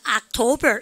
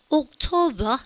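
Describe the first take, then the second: First: The first vowel is an open 'ah' sound. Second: The first vowel is a rounded 'oh' sound. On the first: This is the American-influenced way Koreans learned. "우리는 어릴 때부터 October 이렇게 하잖아요" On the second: This is how British speakers say it. "영국 애들은 O로 적힌 건 O로 발음합니다"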